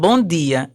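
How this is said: It is said in a Pernambuco regional accent. This marks the speaker as an outsider. "eu chego de Pernambuco falando bom dia"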